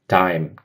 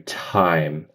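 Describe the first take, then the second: First: The first sound has almost no puff of air. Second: The first sound has a strong puff of air. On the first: This is how a Brazilian speaker might say it. "So instead of like dime" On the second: This is how an American speaker says it. "I would do time ... blow out a lot of air"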